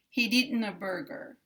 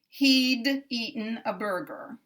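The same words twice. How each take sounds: First: The D is released into the next word. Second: The D is released separately before the next word. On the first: The speaker calls it right. "We want to release the air on the E" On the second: The speaker calls it wrong. "if I pronounce this D the normal way... there's too much release here at the D"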